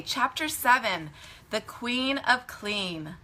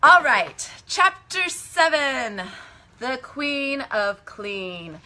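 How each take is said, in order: First: Measured chapter title, slowing on the name; storybook title reading. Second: Loud, high, drawn-out title announcer; hammed-up chapter announcement. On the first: A narrator's reading. Storyteller begins reading chapter seven to children, measured and clear. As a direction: read the title out simply and slowly. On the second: Storyteller announces chapter seven to listeners, grandly and playfully.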